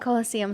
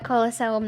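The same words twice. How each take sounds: First: The word has the usual English pronunciation. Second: The word has a non-English pronunciation. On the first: The speaker calls it right. "I mean Colosseum, sorry" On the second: The speaker calls it wrong. "I keep pronouncing it quote unquote wrong"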